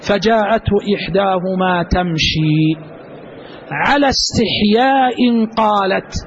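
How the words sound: The pause comes after the word تمشي. She spoke with modesty. "الوقف الثاني ... وعلى الوقف الثاني على استحياء قالت"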